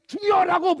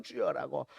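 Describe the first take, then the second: First: Loud, higher prayer shout; crying out. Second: Said in the usual way. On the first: Shown as a demonstration. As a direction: burst out calling on the Lord. (크게 부르짖는 소리) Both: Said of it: "부르짖어".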